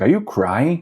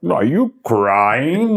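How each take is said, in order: First: Higher, teasing question from a friend; friend's surprised question. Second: Slow, higher, mocking echo of the question. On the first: Retold or imitated. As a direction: ask it like you just caught him. Friend asking at the concert. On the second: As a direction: drag it out to throw it back at him.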